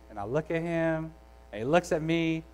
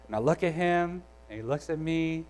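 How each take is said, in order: Both takes have the same delivery.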